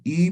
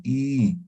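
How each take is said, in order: First: "I" said short and quick; a plain brief "I"; clipped short "I"; short vowel. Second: "I" held for double time; drawn-out "I" as with diaeresis; long vowel. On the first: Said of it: "En vez de decir I". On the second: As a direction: stretch the "I" out long. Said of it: "vamos a decir I". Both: Shown as a demonstration.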